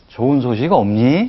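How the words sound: It is said warmly, as if smiling. The question is kind and caring. The speaker calls it right. "웃는 얼굴로 얘기해 주는 거고"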